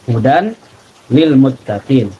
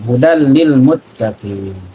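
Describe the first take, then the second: First: The n sound is heard before the l. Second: The n sound merges into the l. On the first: The speaker calls it wrong. "Namun di sini tidak dibaca hudan" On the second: The speaker calls it right. "Dimasukkan tanpa dilamakan"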